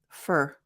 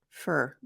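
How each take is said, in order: First: The word has a reduced vowel. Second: The same.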